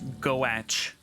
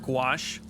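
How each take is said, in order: First: It is said with an 'oh' vowel, like 'goach'. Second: It is said with an 'ah' vowel, like 'gwash'. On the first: The speaker calls it wrong. "looks like it's goach" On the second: The speaker calls it right. "I only know how to pronounce the word gouache"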